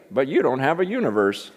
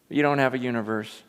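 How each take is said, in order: First: Put-on scratchy old preacher's swooping voice; old man's scratchy, lilting voice; J. Vernon McGee. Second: Said in the usual way. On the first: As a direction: imitate a little old preacher delivering his punchline. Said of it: "scratchy voice".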